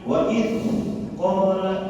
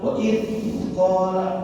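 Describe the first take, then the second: No difference in how they are said.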